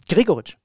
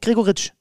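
First: The stress is on the first syllable. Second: The stress is on the last syllable. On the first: The speaker calls it right. "ganz vorne" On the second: The speaker calls it wrong. "Nicht Gregoritsch, hinten"

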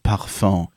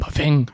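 First: Said with a refined, French-style pronunciation. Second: Said with a blunt Berlin pronunciation, like a bang. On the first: "Meine Mutter sagt auch nicht Parfum" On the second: "Klingt immer wie ein Knall"

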